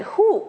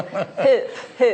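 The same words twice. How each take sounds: First: "Hoop" in a put-on English accent, pitched much higher, owl-like. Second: "Hoop, hoop" in her own Scottish way, laughing. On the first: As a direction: try "Hoop" the English way, high and hooting like an owl. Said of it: "the way I try to say hoop in an English accent". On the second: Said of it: "Hoop is how we say it in Scotland". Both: Shown as a demonstration.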